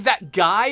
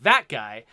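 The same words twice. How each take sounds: First: The stress falls on the word guy. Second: The stress falls on the word that. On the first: A real, normal person is standing over there. The speaker calls it wrong. "if you emphasize the word guy" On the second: It is a throwaway reference to anyone or anything. The speaker calls it right. "if you emphasize the word that"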